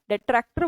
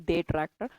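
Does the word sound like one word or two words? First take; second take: one word; two words. First: It sounds like one single joined word. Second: It sounds like two words, day and tractor. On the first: The speaker calls it right. "डेट्रैक्टर बोलते हैं" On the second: The speaker calls it wrong. "इसको ऐसे नहीं बोलते डे ट्रैक्टर"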